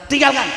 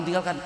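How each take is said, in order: First: Loud, high emphatic TINGGALKAN; firm command. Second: Said in the usual way. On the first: Acted. Kiai ruling on what is haram, firm command. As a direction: push "tinggalkan" out loud and higher.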